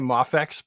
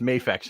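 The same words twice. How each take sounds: First: The A is a short vowel sound. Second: The A is long, like its letter name. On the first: The speaker calls it wrong. "People will say Mafex" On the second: The speaker calls it right. "it should be pronounced Mafex in English"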